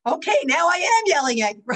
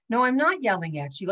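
First: High, loud, fast mock yell; escalated parental yell. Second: Parent's denial. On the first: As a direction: lose patience and yell, stressing "am". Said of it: "Anyway, it just escalates". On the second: Acted. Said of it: "And you say".

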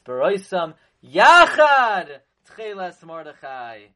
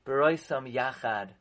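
First: YACHAD stretched out and much louder; slow phrase peaking in a loud, drawn-out YACHAD; stress on YACHAD. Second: Said in the usual way. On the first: Shown as a demonstration. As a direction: hit "Yachad" hard and long, then ease off. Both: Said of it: "That's the emphasis".

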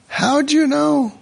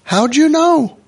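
First: Much higher, drawn-out astonishment; slow mock wonder. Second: Mock amazement. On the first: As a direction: stretch it in fake awe. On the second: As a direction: overplay the surprise. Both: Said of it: "F you, drop dead".

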